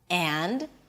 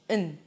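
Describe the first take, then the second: First: The word is stressed with a full vowel and d. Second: The word is reduced to a weak un without d. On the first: "this word is stressed, is pronounced alone, and this is how I pronounce it" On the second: "Notice that I also drop the d"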